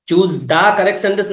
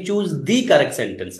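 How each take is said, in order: First: "the" in "choose the correct sentence" said as "da". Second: "the" in "choose the correct sentence" said as "dee". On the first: Teacher offers students two readings of the article, "the" as "da". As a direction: say "the" with an open "ah" vowel, "da". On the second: Teacher offers students the second reading, "the" as "dee". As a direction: say "the" with a long "ee" vowel, "dee". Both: Shown as a demonstration. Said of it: "দা করবো নাকি দি করবো".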